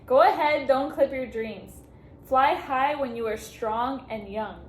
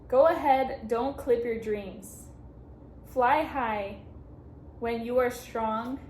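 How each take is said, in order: First: Slow, louder, tear-choked reading; restarting the card's farewell wish, now fighting tears; fighting back tears. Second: Steady heartfelt reading of the card; first, calmer take of a card's farewell wish; first read-through. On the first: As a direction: push the words out slowly while trying not to cry. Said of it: "Okay, try not to cry". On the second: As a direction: read the wish out sincerely before the emotion hits. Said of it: "oh, okay". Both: Real, not acted.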